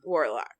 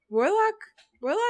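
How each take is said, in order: First: Said in the usual way. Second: "Warlock?" pitched high with a rising end; high, rising, doubting "Warlock?"; questioning. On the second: Real, not acted. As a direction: lift "Warlock" sharply into an unsure question. Repeats own word as a question.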